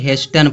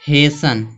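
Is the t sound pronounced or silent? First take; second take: pronounced; silent. First: The t sound is pronounced in the middle. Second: The t sound is silent in the middle. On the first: The speaker calls it wrong. "कुछ लोग इसको हेस्टन पढ़ते हैं" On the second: The speaker calls it right. "इसको हेसन पढ़ा जा रहा है ... साइलेंट होगा"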